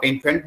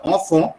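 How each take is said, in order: First: "infant" with an in- start and sounded final T; English-style mispronunciation. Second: "enfant" as on-fon, final T silent; correct French pronunciation. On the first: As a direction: say "infant" as the English word, T heard. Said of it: "जिसको आप infant बोल देते हो". ("infant" अंग्रेज़ी ढंग से, आख़िर में T के साथ) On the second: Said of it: "but it's a enfant". ("enfant" French ढंग से, "ऑंफ़ों", T चुप) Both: Shown as a demonstration.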